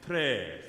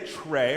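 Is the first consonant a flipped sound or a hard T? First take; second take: flipped; hard T. First: The T is a quick flap like D. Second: The T is a crisp, hard stop. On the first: The speaker calls it right. "I like more like a flip T D" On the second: The speaker calls it wrong. "I don't say tre"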